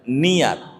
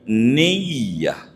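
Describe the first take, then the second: First: The y sound is single and short. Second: The y sound is doubled and held. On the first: "enggak ditasdid iyanya, dibacanya niat" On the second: "kudu diidgham menjadi niyah"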